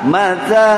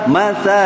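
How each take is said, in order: Both takes have the same delivery.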